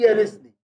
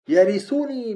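First: The verb is read with no vowel. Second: The verb is read with a u vowel. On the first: The verb is a result of the gift. "ويرثني بالجزم" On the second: The verb describes the heir. "يرثني بالرفع"

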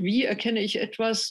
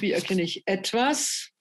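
First: The stress falls on the word wie. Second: The stress falls on the word etwas. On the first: The question is about the means of knowing. "Kant hat betont" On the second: The question is about the object being known. "und Husserl betont"

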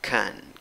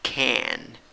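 First: It is unstressed with a reduced schwa vowel. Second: It is emphasized with a full open vowel.

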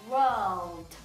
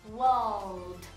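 No difference in how they are said.

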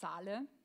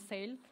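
First: The word is said in a non-English way. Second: The word is said the English way. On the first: It sounds like the name of a fashion designer. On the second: It means a discount sale.

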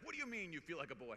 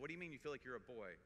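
First: It is asked in a shocked, incredulous tone. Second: It is asked in an open, curious tone.

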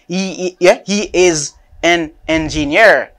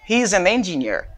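First: He is is said as two separate full words. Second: He is is contracted and linked to the next word. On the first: The speaker calls it wrong. "Il pas dit he is an engineer" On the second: The speaker calls it right. "I say he's an engineer"

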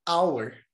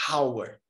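First: The initial h sound is silent. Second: The initial h sound is breathy and audible. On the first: The speaker calls it right. "vai ser hour" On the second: The speaker calls it wrong. "não vai ser hour"

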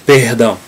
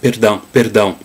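First: The R is a guttural, French-like sound. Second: The R is not a guttural, French-like sound. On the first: "in Carioca Portuguese we have in the middle position, the R is like more like German, like the French R" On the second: "that will be in Southern dialects with perdão"

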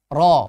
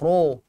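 First: The syllable is said without pouting the lips. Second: The syllable is said with pouted, rounded lips. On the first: The speaker calls it right. "Ha, seperti itu" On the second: The speaker calls it wrong. "Salah ro. Ha, munyung"

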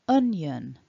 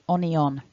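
First: The word is pronounced as two syllables, un-yun. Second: The word is pronounced the way it is spelled. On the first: The speaker calls it right. "un, un... yun, yun. So building it all back up" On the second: The speaker calls it wrong. "you might want to say onion. That is definitely not how a native speaker will pronounce this word"

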